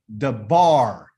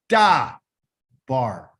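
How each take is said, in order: First: The stress is on the second syllable. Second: The stress is on the first syllable. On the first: The speaker calls it right. "So the closed one is where you're going to put the emphasis on" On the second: The speaker calls it wrong. "I don't say da bar"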